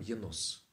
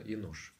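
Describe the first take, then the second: First: The name ends with an s sound. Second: The name ends with an sh sound. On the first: This is the form used in the traditional Russian Bible. "в синодальном Енос" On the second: This is the original Hebrew form. "по-еврейски именно Енош"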